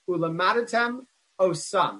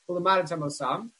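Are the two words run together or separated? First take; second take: separated; run together. First: A short break separates the two words. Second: The two words run together as one word. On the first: The speaker calls it right. "you have to have a break in between them" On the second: The speaker calls it wrong. "it runs it together as if one word"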